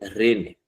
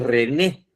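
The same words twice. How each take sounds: First: The stress is on the first syllable. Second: The stress is on the last syllable. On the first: This is what the misspelled sign says. The speaker calls it wrong. "dice René. ¿Ya? Eso es un error ortográfico" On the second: This is the name as it should be. The speaker calls it right. "No dice René"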